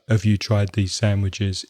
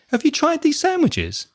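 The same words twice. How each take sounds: First: The pitch stays on one flat level. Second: The pitch goes up high and varies. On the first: The speaker seems bored and unfriendly. The speaker calls it wrong. "If you keep the tone, el tono, on the same level, you might sound bored or boring" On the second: The speaker seems friendly and open to talk. The speaker calls it right. "Notice the intonation goes up high"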